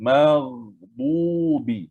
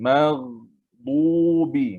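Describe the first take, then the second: Both takes have the same delivery.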